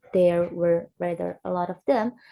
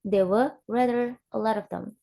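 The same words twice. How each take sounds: First: There were rather a lot of them, every word fully pronounced, lower and even; unweakened full forms. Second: There were rather a lot of them with schwa in were, of, them; native-style weakening. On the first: Teacher showing what natives avoid, there were rather a lot of them in full forms. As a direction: keep of and them unreduced, word by word. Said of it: "So it's not". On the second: Teacher imitating native speakers, a lot of them weakened and linked. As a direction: reduce and link a lot of them. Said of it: "the native speaker maybe say it as".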